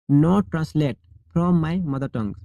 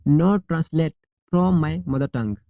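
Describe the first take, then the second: No difference in how they are said.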